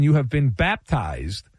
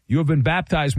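First: "You" rising and stressed. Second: "been" pressed with a falling tune; stress on been. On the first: Host welcoming Wemby, stress on "You". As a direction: lean on "You" in You have been baptized. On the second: Host repeating the welcome, stress on "been". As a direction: land hard on "been" in You have been baptized. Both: Shown as a demonstration. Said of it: "come on down".

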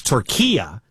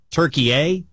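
First: "Turkiya" as tur-KEE-ya, stress in the middle; correct pronunciation. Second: "Turkey A", ending in a long "ay"; mistaken pronunciation. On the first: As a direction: say "Turkiya" ending in "ya", not "ay". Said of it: "is the correct pronunciation". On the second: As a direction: say "Turkey A" like turkey plus the letter A. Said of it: "We've been pronouncing it wrong". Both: Shown as a demonstration.

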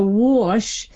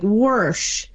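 First: First "whoosh" as "wawsh", rounded vowel, no R; slow, rounded "wawsh" for whoosh. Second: Last "whoosh" as "warsh", with an R; slow "warsh", R before the sh; R-coloured vowel. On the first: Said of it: "a rounder version of the ah vowel". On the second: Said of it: "gave off an almost R sound". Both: Shown as a demonstration.

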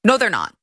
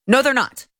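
First: Said in the usual way. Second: Firm emphatic denial; stress on they're. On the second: Real, not acted. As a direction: lean hard on "they're".

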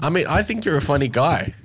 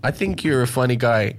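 First: I said higher and leaned on; I, not think, carries the compliment; stress on I. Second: Weight on think this time; a sincere repeat landing on think; stress on think. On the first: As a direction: put the weight on I. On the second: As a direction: think leaned on, falling. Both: Real, not acted. Repeats compliment, shifting stress.

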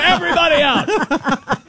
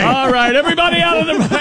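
First: High, slow order through laughter; laughing command. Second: Commanding shout. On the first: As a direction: order everyone out while cracking up. Mock raid order, laughing. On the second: Mock raid order continues. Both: Pretend.

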